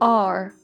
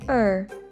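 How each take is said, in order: First: The word is said with a full vowel. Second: The word is said with a reduced vowel. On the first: "The sound of R is the strong form sound" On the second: "we can hear the weak sound"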